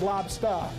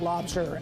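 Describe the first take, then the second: First: It is said in a Boston accent, ending 'stah'. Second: It is said in a general accent, ending 'ster'. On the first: The speaker calls it right. "L O B S T A H, like you're talking from Boston" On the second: The speaker calls it wrong. "not lobster"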